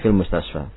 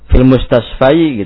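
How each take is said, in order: First: The last word ends in a plain 'a' sound. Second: The last word ends with an added 'i' sound. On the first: The speaker calls it right. "tapi fil mustasfa" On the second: The speaker calls it wrong. "jangan dibaca fil mustasfai gitu ya"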